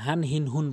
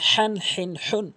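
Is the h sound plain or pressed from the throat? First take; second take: plain; throat. First: The h is a light, plain breath sound. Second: The h is pressed from the middle throat. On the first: The speaker calls it wrong. "যদি আপনি ছোট হা উচ্চারণ করেন" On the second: The speaker calls it right. "জিব্বা হলকের মাঝখান থেকে হাঁটি চাপ দিয়ে উচ্চারণ করতে হয়"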